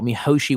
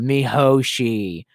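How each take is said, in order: First: Said in the usual way. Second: Mihoshi said very slowly, each syllable drawn out, falling at the end; savoured name. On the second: Shown as a demonstration. Recalling the dumb police girl for chat, Mihoshi said slowly and drawn out. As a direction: linger over Mihoshi, mi-ho-shi, drawn out slowly.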